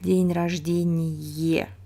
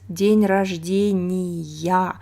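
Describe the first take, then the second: First: The last word has the nominative case ending. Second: The last word has the genitive case ending. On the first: The speaker calls it wrong. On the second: The speaker calls it right. "we use genitive case"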